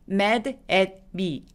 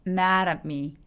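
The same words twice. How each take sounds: First: The words are said separately. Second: The words are linked smoothly together. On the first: The speaker calls it wrong. "아니고" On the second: The speaker calls it right. "이렇게 발음하기"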